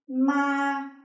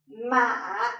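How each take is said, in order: First: The pitch stays high and level. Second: The pitch dips down and then rises. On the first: "a high and flat tone" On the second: "a low falling and rising tone"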